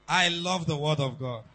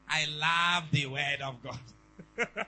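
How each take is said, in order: First: It is said in the speaker's ordinary accent. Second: It is said in a Ghanaian accent.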